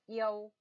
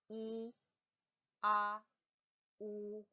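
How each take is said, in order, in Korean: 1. 모음 세 개를 빠르게 이어서 말해요. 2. 모음 세 개를 따로따로, 쉬어가며 말해요. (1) "빨리 세 개를 한꺼번에 읽어보겠습니다" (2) "하나씩 읽어볼게요"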